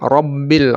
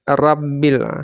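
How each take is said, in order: First: The r is heavy, with a rounded full mouth. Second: The r is light, with an unrounded thin mouth. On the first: The speaker calls it right. "Tebal ra" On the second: The speaker calls it wrong. "Tidak boleh dibaca rabbil. Itu kalau rabbil itu tipis dia"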